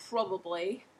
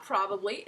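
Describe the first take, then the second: First: Probably with an open Australian "ah" vowel; Australian pronunciation. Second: Said in the usual way. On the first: Shown as a demonstration. Teacher correcting learners on Australian probably. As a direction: say probably with the broad "prob" sound. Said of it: "it's probably". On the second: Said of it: "it's not probably".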